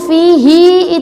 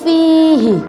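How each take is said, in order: First: The final vowel is long. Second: The final vowel is short. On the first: "haknya yang dibaca panjang" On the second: "Aturannya itu fihi. Hi-nya dibaca pendek"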